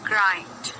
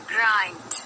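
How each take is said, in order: The two takes are said the same way.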